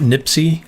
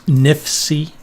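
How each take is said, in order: First: The middle consonant sounds like a 'p'. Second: The middle consonant sounds like an 'f'. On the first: This is how it slips out in his accent. "sometimes the way I say it, it comes out nipsy" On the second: This is the intended pronunciation. "instead of nifs, nifsy"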